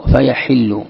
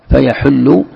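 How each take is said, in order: First: "فيحل" said slowly as fa-yaḥillu; short i after the ح in "فيحل"; kasra on ḥā’. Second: "فيحل" said fa-yaḥullu; short u after the ح in "فيحل"; damma on ḥā’. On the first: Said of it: "تكسر الحاء". ("فيحل" بكسر الحاء) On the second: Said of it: "أو تضمها". ("فيحل" بضم الحاء) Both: Shown as a demonstration.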